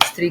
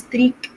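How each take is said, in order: First: The syllable is clipped quickly and left unstressed. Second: The syllable is said fully with clear stress. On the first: The speaker calls it right. "بنخطف كده كلمة streak دي" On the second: The speaker calls it wrong. "مش بنتَّك عليها، مش بنقول streak لأ"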